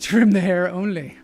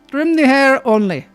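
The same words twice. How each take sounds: First: It is said in the speaker's plain accent. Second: It is said in an Indian accent.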